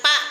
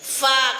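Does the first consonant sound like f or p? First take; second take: p; f. First: The first consonant is a p sound. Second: The first consonant is an f sound. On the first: The speaker calls it wrong. "jangan pak" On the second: The speaker calls it right. "tapi fa"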